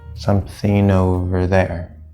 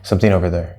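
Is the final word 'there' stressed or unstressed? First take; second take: stressed; unstressed. First: The final word 'there' is clearly stressed. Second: The final word 'there' is small and unstressed. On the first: The speaker calls it right. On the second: The speaker calls it wrong.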